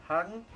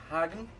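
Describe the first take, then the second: No difference in how they are said.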